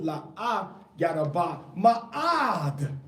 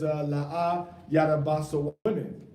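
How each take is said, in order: First: La'a yada ba ma'ad stretched out slowly, leaning on ma'ad; stress on ma'ad. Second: Said in the usual way. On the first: Shown as a demonstration. Teacher slowly reading the Hebrew to show the extra word, stressed. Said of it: "so don't greatly". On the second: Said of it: "it says".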